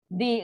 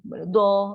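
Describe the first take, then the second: First: The consonant is followed by an i vowel. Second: The consonant is followed by an a vowel. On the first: "baris bawah tak boleh lah" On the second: "pada teks saya nampak macam ni"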